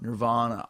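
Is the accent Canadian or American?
American. It is said in an American accent.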